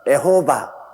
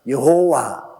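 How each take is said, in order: First: The name begins with the syllable e. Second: The name begins with the syllable yeo. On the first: This is how Japanese speakers say the name. "일본 사람들은 에호바" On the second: This is how Koreans say the name. "한국 사람들은 여호와"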